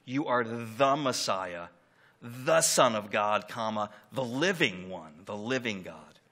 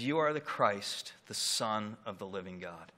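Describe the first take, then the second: First: Slow, weighty "the" before Messiah and Son, stronger each time; stress on THE. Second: Said in the usual way. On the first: Shown as a demonstration. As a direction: lean hard on every "the", drawn out. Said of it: "it is super emphatic". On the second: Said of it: "The thes are like capital bold T H Es".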